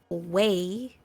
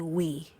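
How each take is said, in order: First: The word is said in a standard accent. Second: The word is said in a Patois accent. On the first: This is how others say it. The speaker calls it right. "you say way" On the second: This is how the speaker says it. The speaker calls it wrong. "I say we"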